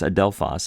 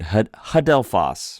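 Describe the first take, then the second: First: The word begins directly with a vowel. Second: The word begins with an H sound. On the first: The speaker calls it right. "there is no H sound there. It's adelphos" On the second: The speaker calls it wrong. "If it were a rough breathing mark, we would say"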